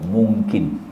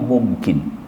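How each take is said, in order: First: The sound before the k is ng. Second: The sound before the k is m. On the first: This is the Malay form of the word. "Orang Melayu kata mungkin" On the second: This is the original Arabic form of the word. "Arabnya mungkin, dibaca dengan mungkin, mam"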